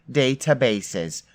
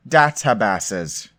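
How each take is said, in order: First: "Databases" with long ay vowels; London pronunciation. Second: "Databases" with short flat a, as in cat; British-style pronunciation. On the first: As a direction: say "Databases" as day-ta-bay-ses, stretched out. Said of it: "they say databases". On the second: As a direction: say "Databases" as dat-a-bass-es, stretched out. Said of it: "I thought British people said data". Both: Shown as a demonstration.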